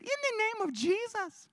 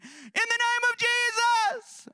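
First: Put-on high but level child's voice; corrected take, quieter and higher; high child voice, softer. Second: Put-on high, slow, loud children's voice; high kids' cry. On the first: Kids correct themselves, high childish voice. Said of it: "No, they said". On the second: Kids facing Gregorio, high childish proclamation. Kids command in Jesus' name.

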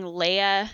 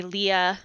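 First: Leia said as LAY-uh; pronunciation demo. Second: Leah said as LEE-uh; pronunciation demo. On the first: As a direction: say Leia with "lay" in the first syllable. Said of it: "instead of saying Leia". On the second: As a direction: say Leah with a long EE in the first syllable. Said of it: "they say Leah". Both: Shown as a demonstration.

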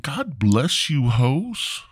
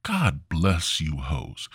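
First: Higher, slow blessing; higher take. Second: Said in the usual way. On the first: Shown as a demonstration.

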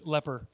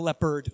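First: "leper" ending without a d; intended word. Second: "leopard" with a d at the end; wrong word. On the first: Preacher clarifies the word for congregation, "leper" without d. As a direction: say "leper", no d on the end. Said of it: "Not leopard". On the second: Preacher rules out the animal, "leopard" with final d. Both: Shown as a demonstration.

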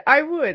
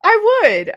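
First: Said in the usual way. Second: Eager yes. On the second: Real, not acted. Eager answer about being Batman.

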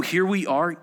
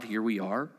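First: Said in the usual way. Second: Puzzled. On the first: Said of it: "Can you send forth lightnings that they may go and say to you". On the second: Shown as a demonstration. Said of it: "You mean the lightning says to God".

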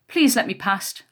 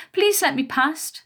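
First: Said in the usual way. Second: High, slow mocking whine; mocking mimicry. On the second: A narrator's reading. Smaller bully mimicking her victim's plea, mocking. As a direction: draw it out in a high copycat voice. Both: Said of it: "the smaller one mimicked".

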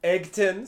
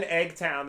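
First: Eggton said with a short unstressed "ton"; corrected pronunciation. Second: Eggtown said with a full "town" ending; Eggtown pronunciation. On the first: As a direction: say Eggton with a reduced ending, higher. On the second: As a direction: say Eggtown like egg plus town. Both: Real, not acted. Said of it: "I think it's Eggton".

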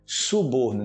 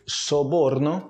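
First: "Suborno" with u first; correct suborno. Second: "Soborno" slow with o; slow Spanish soborno. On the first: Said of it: "Em português seria suborno". ("Suborno" com u) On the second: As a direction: draw out "Soborno". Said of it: "Spanish word shown slowly". ("Soborno" bem devagar) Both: Shown as a demonstration.

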